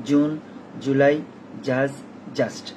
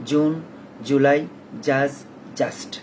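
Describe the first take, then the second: Both takes have the same delivery.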